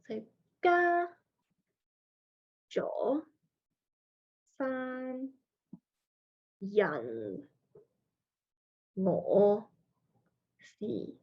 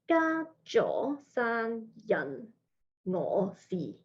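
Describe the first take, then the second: First: The syllables are said slowly and separately. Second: The syllables are said quickly, run together.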